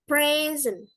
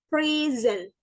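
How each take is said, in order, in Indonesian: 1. Penekanannya ada di suku kata pertama. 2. Penekanannya ada di suku kata kedua. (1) "bunyi kata sifat dan benda yang memiliki dua suku kata, penekanan ada di awal suku kata" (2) "pelafalan bunyi kata kerja yang, yang penekanannya di akhir"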